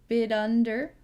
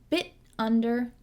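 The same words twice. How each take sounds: First: The T in 'bit' is a quick flap. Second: The T in 'bit' is a stopped sound. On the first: "So we can do a flap T here" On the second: "stop T"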